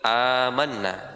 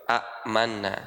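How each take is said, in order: First: It begins with one long, unbroken vowel. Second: Two short vowels are split by a glottal stop. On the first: "Tapi disebut amanna" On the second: "sebenarnya dia dua kan, hamzahnya dua"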